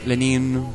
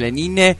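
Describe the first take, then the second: First: The final e sound is silent. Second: The final e sound is pronounced. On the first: "o como en francés, Lenin, porque la última no se pronuncia" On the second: "así se pronuncia Lenine"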